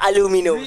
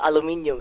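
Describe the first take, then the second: First: It is said the American way, four syllables. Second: It is said the British way, five syllables.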